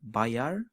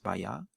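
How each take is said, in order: First: The final R is pronounced. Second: The final R is dropped, vowel lengthened. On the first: Standard Malay form. "in standard Malay" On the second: Common everyday Malay form.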